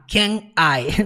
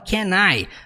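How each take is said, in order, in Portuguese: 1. As duas palavras são ditas separadas. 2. As duas palavras são ditas juntas. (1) "nunca falar can I" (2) "você junta, você fala can I"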